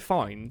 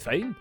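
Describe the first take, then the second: First: It is said in a plain standard accent. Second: It is said in a Scottish accent. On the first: "They don't say fine" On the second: "That's a Scottish. They say fine"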